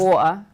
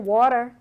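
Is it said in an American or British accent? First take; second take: British; American. First: It is said in an English accent. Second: It is said in an American accent.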